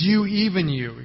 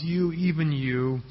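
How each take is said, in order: First: Both "You" and "you" in "You, even you." hit hard and a bit higher; emphatic double you. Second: Slow, hushed lament over Jerusalem. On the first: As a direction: lean on each "you" in "You, even you." with force. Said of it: "He makes it very emphatic". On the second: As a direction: let "You, even you." sag with a slow mournful ache. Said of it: "He's crying out over the city". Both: Shown as a demonstration.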